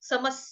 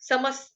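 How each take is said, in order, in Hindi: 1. शब्द का अंत एक छोटी 's' ध्वनि से होता है। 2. शब्द का अंत एक छोटी 's' ध्वनि से होता है।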